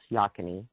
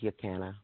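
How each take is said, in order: First: The name ends with an 'ee' sound. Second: The name ends with an 'ah' sound. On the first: This is how the name is pronounced now. "but pronounced Yakani" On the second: This was the original pronunciation. "I think the original pronunciation was Yakana"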